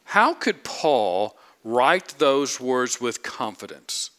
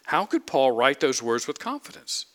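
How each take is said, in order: First: How drawn out slowly and leaned on, slow deliberate question; slow emphatic question. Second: Could lifted and stressed, question rising. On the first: Preacher pressing his congregation, slow stress on How. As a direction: lean hard on How, slowly. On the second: Preacher repeating the question, stress on could. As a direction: push the word could up. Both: Shown as a demonstration. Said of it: "Let me emphasize this again".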